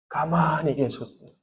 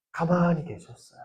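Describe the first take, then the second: First: Dropped to a soft, hushed fall. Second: Soft hushed fall again on 가만히. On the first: Preacher telling youth of Jesus' silence, hushed. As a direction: let the words sink quietly. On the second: Preacher repeating to youth that Jesus stayed silent, hushed. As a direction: quietly let it land. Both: Acted.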